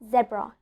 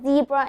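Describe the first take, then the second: First: The word is said the British way. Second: The word is said the American way. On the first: The speaker calls it wrong. "not zebra" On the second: The speaker calls it right. "we pronounce it as zebra in the American accent"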